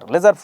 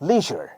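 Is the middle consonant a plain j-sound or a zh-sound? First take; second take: plain j; zh-sound. First: The middle consonant is a plain j-like sound. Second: The middle consonant blends s and j, zh-like. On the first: This is how local speakers say it. The speaker calls it wrong. "আমরা বলছি লেজার লেজার" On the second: This is how native English speakers say it. The speaker calls it right. "ওরা উচ্চারণ করে স আর জ একসাথে"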